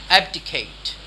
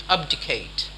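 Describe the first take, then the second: First: "Abdicate" with a short-a "ab" first syllable; standard pronunciation. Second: "abdicate" with an open "ahb" first syllable; thick-accent pronunciation. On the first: Teacher showing a slight difference, "Abdicate" as AB-dih-kate. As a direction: say "Abdicate" with the a of "cat". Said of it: "There's a slight difference". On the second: Teacher showing a thick-accent variant, "abdicate" as AHB-dih-kate. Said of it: "there is a thick accent". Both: Shown as a demonstration.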